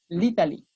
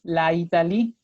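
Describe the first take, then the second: First: The a is dropped, giving litalie. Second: Both vowels are said, la and Italie. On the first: The speaker calls it right. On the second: The speaker calls it wrong. "no se me pueden juntar dos vocales, entonces no puedo decir"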